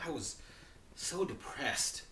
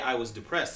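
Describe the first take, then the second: First: It is said with strong, acted-out emotion. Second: It is said flatly, without emotion.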